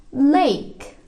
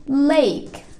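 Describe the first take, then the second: The two takes are said the same way.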